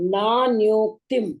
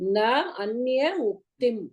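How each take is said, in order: First: The words are merged into one. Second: The words are said separately. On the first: "That is sandhi" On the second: "na anya uktim"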